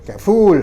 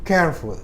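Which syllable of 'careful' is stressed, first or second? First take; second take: second; first. First: The stress is on the second syllable. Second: The stress is on the first syllable. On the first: The speaker calls it wrong. "bacanya nggak boleh careful, nggak boleh fullnya" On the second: The speaker calls it right. "tapi careful. Oh, jadi yang suku kata pertama yang mendapat tekanan"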